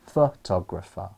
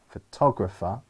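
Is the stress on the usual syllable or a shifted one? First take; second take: shifted; usual. First: The stress falls on a different syllable. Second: The stress falls on the usual syllable. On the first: The speaker calls it wrong. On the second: The speaker calls it right.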